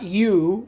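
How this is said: It is said as a gliding English vowel. The speaker calls it wrong. "not you like in English"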